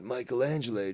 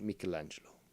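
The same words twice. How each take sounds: First: The name is said with an American pronunciation. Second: The name is said with an Italian pronunciation. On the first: The speaker calls it wrong. "Not Michelangelo, dude ... not the American Italian" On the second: The speaker calls it right. "it's pronounced Michelangelo ... If you speak the Italian"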